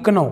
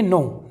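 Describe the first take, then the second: First: The word begins with a k sound. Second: The word begins with an n sound. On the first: The speaker calls it wrong. "ना कि कनो" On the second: The speaker calls it right. "इसे पढ़ेंगे नो"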